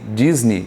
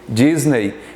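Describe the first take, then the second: First: The stress is on the first syllable. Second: The stress is on the second syllable. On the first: This is how Americans say it. "para os americanos é o Disney" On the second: This is how Brazilians say it. "nós falamos Disney... a sílaba tônica é no NEI"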